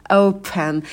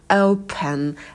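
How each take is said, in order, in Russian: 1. Первый гласный — отчётливый скользящий дифтонг. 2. Первый гласный — отчётливый скользящий дифтонг.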